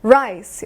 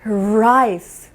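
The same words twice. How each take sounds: First: Slow "라이스" as rice, R drawn out; curled English R. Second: "라이스" as lice, beginning with L; L version. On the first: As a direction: stretch "라이스" from a curled-back R. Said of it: "어려운 발음 연습해 볼게요". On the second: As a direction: say "라이스" with tongue tip touching for L. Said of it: "라이스가 아니에요". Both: Shown as a demonstration.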